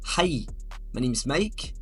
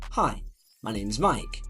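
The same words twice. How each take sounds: First: It is spoken in a Scottish accent. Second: It is spoken in received pronunciation. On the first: "If you're from Scotland, you might say" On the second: "you might speak with a received pronunciation"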